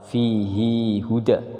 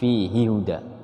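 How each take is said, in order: First: The vowel of 'hi' is held for two beats. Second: The vowel of 'hi' is held for one beat. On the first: "dibacanya dua harokat" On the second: "dibacanya satu harokat"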